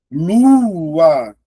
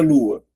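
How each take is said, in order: First: "Lua" stretched into two long syllables, higher and louder. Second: Said in the usual way. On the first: Shown as a demonstration. Teacher showing two vowels, "Lua" loud and drawn out. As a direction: draw out "Lua" loudly, each vowel held. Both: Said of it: "duas sílabas".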